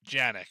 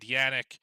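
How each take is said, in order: First: The name begins with a J sound. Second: The name begins with a Y sound.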